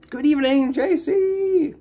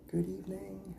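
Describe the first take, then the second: First: High, loud cheery hello; bright high greeting. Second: Dropped, much softer hello; soft repeat. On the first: Streamer welcoming a chat viewer, loud high greeting. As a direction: call the welcome out with big energy. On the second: Streamer repeating the greeting to a viewer, softly. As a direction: say it again almost to yourself. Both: Real, not acted.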